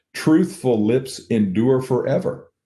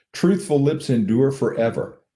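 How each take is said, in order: Both takes have the same delivery.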